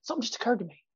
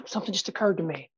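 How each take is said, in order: First: Hushed stage reveal. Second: Stage-pause demo line. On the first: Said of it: "I stop it and make sure they hear it". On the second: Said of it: "and then say". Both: Shown as a demonstration.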